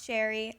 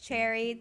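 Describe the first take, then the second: First: The word begins with a 'sh' sound. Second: The word begins with a 'ch' sound. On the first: The speaker calls it wrong. "not Sherry. I was saying Sherry the first time" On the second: The speaker calls it right. "I think it's Cherry"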